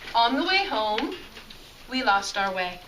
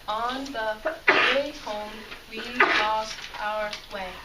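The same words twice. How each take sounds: First: The words flow together in smooth groups. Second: Each word is read separately with breaks. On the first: The speaker calls it right. "It's almost like a song" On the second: The speaker calls it wrong. "kind of staccato where we're just reading one word at a time"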